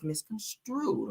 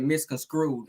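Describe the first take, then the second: First: "misconstrued" said slow and soft, every syllable clear; carefully slow "misconstrued"; correct pronunciation. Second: "Misconstrued" said with a d sound in front, as the woman said it; mock her way of saying "Misconstrued."; mocking mispronunciation. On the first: Shown as a demonstration. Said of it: "It's misconstrued". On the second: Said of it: "you kinda did kinda mess up that word".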